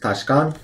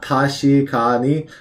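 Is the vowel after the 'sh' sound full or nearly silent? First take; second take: silent; full. First: The vowel after 'sh' is rushed and nearly silent. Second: The vowel after 'sh' is fully pronounced. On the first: The speaker calls it right. "that e and she gets rushed in this word, so it becomes tashikan" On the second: The speaker calls it wrong. "Not tashikani"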